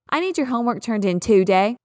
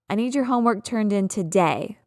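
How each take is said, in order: First: The stress is on the first syllable of today. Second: The stress is on the second syllable of today. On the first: The speaker calls it wrong. "It's not the natural way we say that word" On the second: The speaker calls it right. "That's correct. That's normal"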